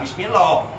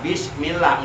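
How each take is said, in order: First: The 'l' in 'lah' is heavy and thick. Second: The 'l' in 'lah' is light and thin. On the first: The speaker calls it wrong. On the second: The speaker calls it right. "mesti dibaca tipis berbunyi lah"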